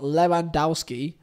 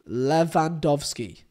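First: The w in the name sounds like w. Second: The w in the name sounds like v. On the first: The speaker calls it wrong. "Not Lewandowski" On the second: The speaker calls it right. "The W is a V"

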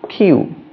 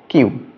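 First: The final 'you' sound is clearly emphasized. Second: The final 'you' sound is not emphasized. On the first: The speaker calls it right. "actually emphasis goes on U" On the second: The speaker calls it wrong. "we generally pronounce Q"

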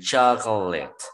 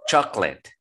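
First: Every vowel, including the middle one, is pronounced. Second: The middle vowel is dropped, giving two syllables. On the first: The speaker calls it wrong. "Si lo pronuncian todos, dirían" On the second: The speaker calls it right. "de manera más natural, solo digan"

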